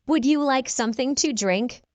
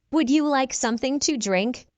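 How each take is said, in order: Both takes have the same delivery.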